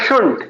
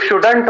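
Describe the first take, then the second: First: No d sound; it sounds like shunt. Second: A clear d sound comes before the n. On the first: The speaker calls it right. "सही तरीके से जो प्रोनाउंसिएट करेंगे" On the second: The speaker calls it wrong. "बहुत सारे बच्चे इसको शुडंट पढ़ते हैं"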